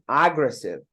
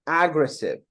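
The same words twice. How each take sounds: First: The stress is on the first syllable. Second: The stress is on the first syllable.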